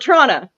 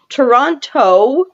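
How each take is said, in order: First: The word is shortened with syllables run together. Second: Every syllable of the word is fully pronounced. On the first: "I call it Toronto" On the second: "I'm going to have to say it properly"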